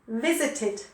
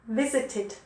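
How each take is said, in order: The two takes are said the same way.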